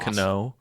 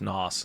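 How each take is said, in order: First: The initial K sound is pronounced. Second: The initial K sound is silent. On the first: "I wonder if we pronounce the K" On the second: "or is it just Nos?"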